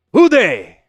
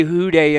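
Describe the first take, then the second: First: Put-on Who day said in a clumsy German accent, higher and louder. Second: Said in the usual way. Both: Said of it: "how would you say who day in, like, a German accent".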